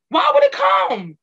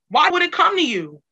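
First: Much higher, louder, exclaimed; emphatic repeat. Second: Said in the usual way. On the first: Shown as a demonstration. To her listener, repeating the question in a high, louder exclaim. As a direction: fling the question up high in disbelief.

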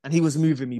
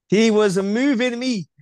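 First: Said in the usual way. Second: Slow, higher and louder on every word; emphatic repeat. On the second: Real, not acted. Repeating it to his mates about the number ten, slow and emphatic. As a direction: lean on it, really savour each word. Repeats line with stronger feeling.

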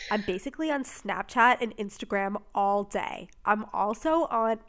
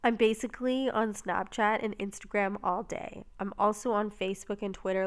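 First: A light New York accent, slightly louder. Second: Said in the usual way. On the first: Shown as a demonstration. Reading out her quiz answer in a light New York accent. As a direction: let a hint of New York slip into the vowels. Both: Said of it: "why am I sounding New York?".

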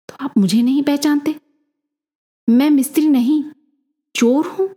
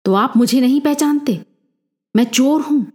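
First: High-pitched challenge, rising at the end; changed voice. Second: Higher-pitched indignant challenge, falling at the end; understated angry outburst, pitch raised; mild narrated roar. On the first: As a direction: throw it back as an incredulous question. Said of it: "Yadu की आवाज बदल गई थी". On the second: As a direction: flare up without really shouting. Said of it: "घूरते हुए गरज उठा वो". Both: A narrator's reading.

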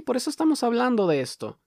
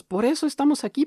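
First: Said in the usual way. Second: Estamos lifted high and leaned on; stress on estamos. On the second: Shown as a demonstration. Speaker to audience, estamos raised high and stressed. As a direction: push the word estamos up as the point.

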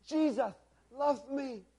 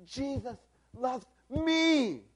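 First: High, slow, put-on boyish voice; Bernie's earnest voice. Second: Slow, high voice with a long, loud ME; Bernie stressing ME. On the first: Preacher voicing Bernie to the boys, earnest high voice. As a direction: say it slowly and high, word by word. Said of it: "he breathed in a hoarse whisper". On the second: Bernie pointing to his own chest, stress on ME. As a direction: lean hard on "me", stretched out. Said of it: "he changed the emphasis". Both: A narrator's reading.

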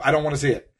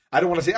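First: Said in the usual way. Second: Rising alarm, voice climbing; getting panicky about the picture. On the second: Real, not acted. Repeated refusal, rising alarm.

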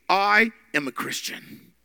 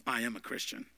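First: Slow, firm, stress on I; bold declaration. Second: Much softer and lower, stress on I; quiet conviction. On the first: Polycarp facing the ruler, defiant. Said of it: "Polycarp answered". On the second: Pastor imagining old man before crowd, quiet. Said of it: "Imagine this eighty-six-year-old man ... saying". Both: Retold or imitated.

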